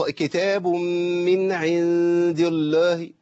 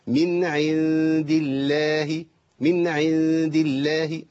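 First: Slow recitation, الله thickened to "ullooh"; heavy lam. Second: Slow recitation, الله as "illaahi", vowel kept open; light lam. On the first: Teacher showing the forbidden heavy lam, slow faulty recitation. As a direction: chant كتاب من عند الله with a dark, heavy L in الله. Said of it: "يبقى ما ينفعش إنك تقول إيه". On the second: Teacher showing the correct light lam, slow chant. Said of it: "لا، هنا لام مرققة". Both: Shown as a demonstration.

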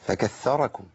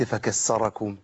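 First: "فكثركم" with a soft doubled th; correct tha. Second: Slow "فكسركم" with a hissed double s; tha replaced by sin. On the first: Teacher giving the verse's true word, "فكثركم" with clear th. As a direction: say "فكثركم" as "fakath-tharakum". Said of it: "اي جعلكم كثره". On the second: Teacher showing how meaning changes, "فكسركم" slowly with s. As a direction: say "فكسركم" as "fakas-sarakum". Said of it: "لو قلت فكسركم". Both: Shown as a demonstration.

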